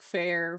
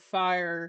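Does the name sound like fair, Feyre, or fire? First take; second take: fair; fire. First: The name is said like fair. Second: The name is said like fire. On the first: "I kept trying to read it in different ways, like fair"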